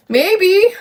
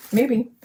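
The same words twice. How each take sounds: First: Much higher, louder, playful squeak on "Maybe"; "Maybe" piped up high like a cartoon voice; squeaky high maybe. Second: Said in the usual way. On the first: Real, not acted. Playful repeat of her own word.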